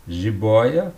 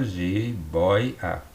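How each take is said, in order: First: Said in the usual way. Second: "jiboia" divided ji-boi-a; syllable by syllable. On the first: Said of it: "tinha ditongo aberto aqui". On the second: Shown as a demonstration. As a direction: pause between the syllables of "jiboia". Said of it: "na penúltima sílaba".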